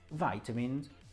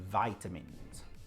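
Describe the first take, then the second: First: It is said with an American pronunciation. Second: The same.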